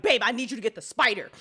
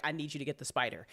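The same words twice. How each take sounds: First: Insistent, louder repeat of the plea; urgent plea. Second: Hushed, scared ask to partner; a small frightened plea, kept low; quiet plea. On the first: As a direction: press her, more urgent now. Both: Retold or imitated. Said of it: "I'm like".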